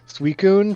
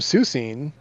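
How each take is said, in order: First: The name is pronounced Suicune. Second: The name is pronounced Susine. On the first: The speaker calls it right. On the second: The speaker calls it wrong.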